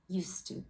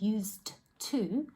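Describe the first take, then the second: First: The d sound merges into the following t. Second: The d sound before 'to' is clearly pronounced. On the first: "most people end up just saying used to" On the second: "instead of saying used to"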